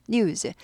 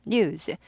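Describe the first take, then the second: Both takes have the same delivery.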